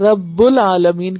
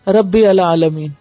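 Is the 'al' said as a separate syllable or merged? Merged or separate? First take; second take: merged; separate. First: The 'al' is merged into the preceding word. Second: The 'al' is pronounced separately with its own vowel. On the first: The speaker calls it right. "रब्बुल आलमीन कहेंगे" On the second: The speaker calls it wrong. "आप यूं नहीं पढ़ेंगे"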